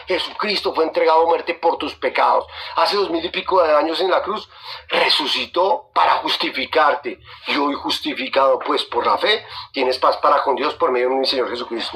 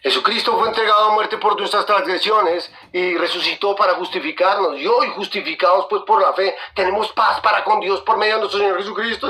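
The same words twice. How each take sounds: First: Deliberate personal restatement. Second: Said in the usual way. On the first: Shown as a demonstration. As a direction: bring it down and spell it out for the listener. Verse restated personally after "Escúchame.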